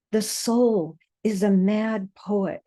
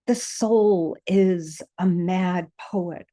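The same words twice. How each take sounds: First: "soul" lifted and stressed, falling close. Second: "the" drawn out and weighted, slow recital; slow stress on the. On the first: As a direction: hit "soul", let the line fall at the end. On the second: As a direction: lean on "the", take "The soul is a mad poet" slowly. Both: Acted. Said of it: "refrain repeated with shifting emphasis".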